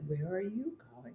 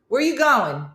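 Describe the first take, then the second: First: It is said in an altered put-on voice. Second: It is said in a natural everyday voice. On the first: The speaker calls it wrong. "She would change her voice" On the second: The speaker calls it right. "Say it like that, how you normally say it"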